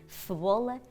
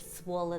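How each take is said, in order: First: The first consonant is a lisped th sound. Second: The first consonant is a clear s sound. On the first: "dizem cebola, cebola, que é os casos de sopinha de massa" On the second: "ao dizer cebola"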